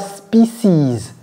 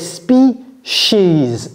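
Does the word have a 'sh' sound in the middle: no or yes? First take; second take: no; yes. First: The middle has no 'sh' sound. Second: The middle has a 'sh' sound, like 'she'. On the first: The speaker calls it wrong. "Ce n'est pas species" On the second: The speaker calls it right. "She's, comme si ça c'était she, ok, avec un S"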